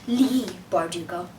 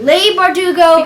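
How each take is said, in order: First: The first name sounds like 'lee'. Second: The first name rhymes with 'sleigh'. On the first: The speaker calls it right. "the author's name is pronounced" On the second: The speaker calls it wrong. "for pronouncing your name wrong. Uh, pronouncing it"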